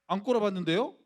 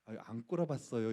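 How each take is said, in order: First: Louder, higher and provocative; cheeky defiance. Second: Gently, meekly deny it; a mild, humble no to the senior; soft polite denial. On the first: Retold or imitated. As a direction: talk back to the senior with a rising challenge. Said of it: "이렇게 얘기를 했어요". (건방지게 대드는 말투) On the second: Shown as a demonstration. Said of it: "부드럽게 얘기할 수도 있잖아요". (부드럽고 공손한 부정)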